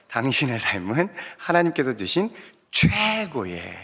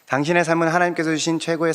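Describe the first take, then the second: First: The word 최고의 is said with strong emphasis. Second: No word stands out with special emphasis. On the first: The speaker calls it right. "이렇게 강세점을 주시면서" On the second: The speaker calls it wrong. "이렇게 하시면 안 되고"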